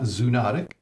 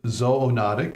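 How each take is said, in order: First: The first syllable sounds like 'zoo'. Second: The first syllable sounds like 'zoh'. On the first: The speaker calls it wrong. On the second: The speaker calls it right. "Z O for animals and ology for study of. So that's why we pronounce it"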